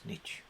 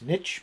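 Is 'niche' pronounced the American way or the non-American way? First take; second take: non-American; American. First: The word has a non-American pronunciation. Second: The word has the American pronunciation. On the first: "but we say it's niche" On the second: "the Americans say it's niche"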